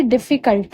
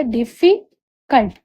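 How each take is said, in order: First: Said in the usual way. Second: difficult said slowly as डि-फि... cult; slow, separated डि, फि, cult for learners; broken into syllables. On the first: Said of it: "difficult में भी एक से ज्यादा syllable है". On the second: Shown as a demonstration. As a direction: break difficult apart, pausing before cult. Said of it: "तीन बार ऐसे break होकर".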